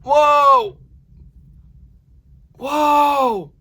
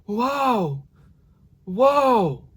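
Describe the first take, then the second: First: The voice is closed and tight. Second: The voice is breathy and airy.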